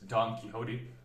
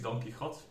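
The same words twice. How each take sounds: First: The name is pronounced the English way. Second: The name is pronounced the Spanish way.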